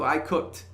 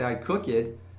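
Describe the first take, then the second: First: Cooked is one syllable ending in a t sound. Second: Cooked has an extra vowel, sounding like two syllables. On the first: The speaker calls it right. "Fala com ele certinho" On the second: The speaker calls it wrong. "a pessoa vai achar que você falou errado é o verbo"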